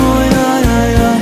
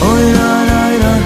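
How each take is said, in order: No difference in how they are said.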